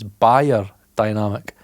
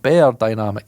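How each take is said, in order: First: The first syllable sounds like 'buyer'. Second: The first syllable sounds like 'bear'. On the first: The speaker calls it right. "it's buyer dynamic" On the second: The speaker calls it wrong. "I say it wrong"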